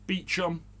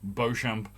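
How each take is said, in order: First: The name is said like English 'Beecham'. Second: The name is said with a French-style sound. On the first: This is the local name for the place. "Apparently, it's called Kibworth Beecham" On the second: This follows the French look of the spelling. "I get a French connotation from it, and I automatically pronounce it Beauchamp"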